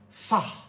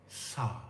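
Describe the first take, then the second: First: The word ends with a strong exhaled h. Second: The word ends softly, with the air held in. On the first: "If I want to say he at the end, it becomes sah" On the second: "I don't say he at the end"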